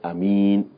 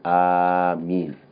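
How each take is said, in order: First: The first vowel is short, nothing lengthened. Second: The first vowel is drawn out long. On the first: "to say Ameen without the mad" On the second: "It is permissible for you to elongate the Hamza"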